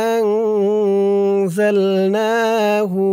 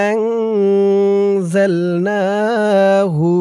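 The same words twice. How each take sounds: No difference in how they are said.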